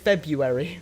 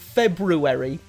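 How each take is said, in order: First: A sound is dropped, making it shorter. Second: Every syllable is pronounced fully, including the first r. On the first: "They say February" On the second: "No one says February"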